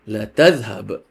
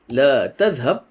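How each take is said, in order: First: The vowel in the first word is cut short. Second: The vowel in the first word is held long. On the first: Surely you will go. "surely you will go" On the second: Do not go. "this means don't go"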